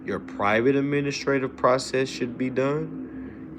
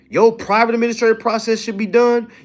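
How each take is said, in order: First: The sentence is spoken at a slow pace. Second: The sentence is spoken at a fast pace. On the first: The speaker calls it right. "Let me talk slow" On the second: The speaker calls it wrong. "I feel like I'm talking fast"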